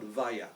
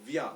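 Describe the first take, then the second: First: Vaya split into two syllables, va-ya; the wrong way, Vaya in two beats. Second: Vya as one syllable, v-y glide; the right way, Vya in one beat; correct Vya. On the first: Teacher showing the wrong Vaya to a student, two syllables. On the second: Teacher correcting a student's spelling, Vya in one syllable. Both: Shown as a demonstration. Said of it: "It's not Vaya, it's Vya".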